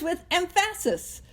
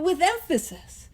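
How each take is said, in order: First: Emphasis said as em-FASS-is; "emphasis" mis-stressed on middle syllable. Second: Said in the usual way. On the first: Shown as a demonstration. Quoting a movie joke to the group, emphasis wrongly stressed. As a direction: jokingly push the stress onto PHA in emphasis. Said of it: "You put the wrong emphasis". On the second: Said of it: "if you remember that movie. But".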